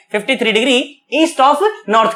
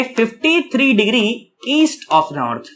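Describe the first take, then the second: First: Said in the usual way. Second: Very slow, measured phrasing; slow and deliberate. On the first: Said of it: "क्या कह सकता हूं मैं?". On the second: Shown as a demonstration. Teacher showing students the other name for the direction, slowly. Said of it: "मैं ये भी कह सकता हूं".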